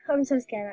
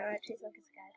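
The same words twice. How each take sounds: First: Nervous sigh, full voice; sighing scared. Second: Much softer, nervous murmur; quiet nervous aside; hushed scared. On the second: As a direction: drop almost to a hush, jittery. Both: Real, not acted.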